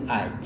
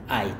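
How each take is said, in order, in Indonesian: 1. Kata itu dipotong jadi satu suku kata pendek. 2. Kata itu dipotong jadi satu suku kata pendek.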